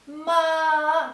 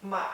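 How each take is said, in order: First: The pitch stays high and level. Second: The pitch dips low and then rises. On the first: It means mother. "this is the first tone" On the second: It means horse. "third tone"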